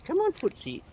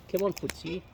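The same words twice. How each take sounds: First: Higher coaxing call to the bird. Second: Said in the usual way. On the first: Real, not acted. Coaxing Footsie the bird closer, high call. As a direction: lift it up high to coax the bird over.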